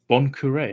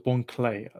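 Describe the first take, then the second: First: The name follows the Japanese pronunciation. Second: The name follows the English pronunciation. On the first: "phonetic here with the um, Japanese pronunciation" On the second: "I thought it was"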